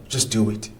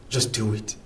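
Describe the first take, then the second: The two takes are said the same way.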